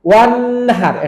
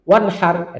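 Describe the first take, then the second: First: The vowel after 'wa' is drawn out long. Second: The vowel after 'wa' is short and quick. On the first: The speaker calls it wrong. "এটা ভুল" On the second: The speaker calls it right. "এটা শুদ্ধ"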